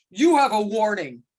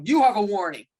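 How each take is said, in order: First: Loud, curt official warning; hammed-up stern ref. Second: Loud, curt mock warning from a rigid ref; imitating a rigid official; stern warning. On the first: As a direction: lay down the law like a humourless referee. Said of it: "I chose that path as opposed to". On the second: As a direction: shut the coach down flat. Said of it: "that man who won't let you talk, he'll just go".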